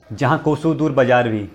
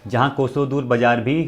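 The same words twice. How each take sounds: The two takes are said the same way.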